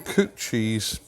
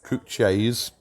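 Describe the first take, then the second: First: It is said in the speaker's usual accent. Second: It is said in a local Staffordshire accent.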